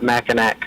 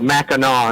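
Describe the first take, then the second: First: The final syllable sounds like 'nack'. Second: The final syllable sounds like 'naw'. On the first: The speaker calls it wrong. "not Mackinac" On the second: The speaker calls it right. "it's uh, Mackinac"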